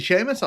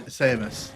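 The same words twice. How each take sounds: First: "Seamus" said with an opening sh sound; name with SH. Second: "Samus" said with a plain s at the start; name with S. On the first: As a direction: say "Seamus" as SHAY-mus. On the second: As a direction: say "Samus" as SAY-mus. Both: Shown as a demonstration. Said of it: "I don't wanna mispronounce people's names".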